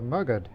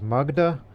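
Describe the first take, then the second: First: The name ends in a consonant sound. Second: The name ends in a vowel sound. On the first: This is how local languages say it. "in Hindi or Bengali or Bahari language pronunciations of this area is" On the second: This is how some people say it. "I've heard some people pronounce it as Magda"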